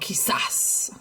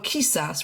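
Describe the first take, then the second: First: The stress is on the last syllable. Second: The stress is on the first syllable. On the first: The speaker calls it right. "this too has that accent mark on the last syllable" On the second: The speaker calls it wrong. "we're not going to go quizás"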